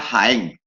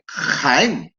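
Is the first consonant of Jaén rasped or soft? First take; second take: soft; rasped. First: The first consonant is a soft breathy h. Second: The first consonant is a harsh rasping sound. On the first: "Como yo diría Jaén" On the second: "las personas de Jaén que dicen Jaén, que la rasgan"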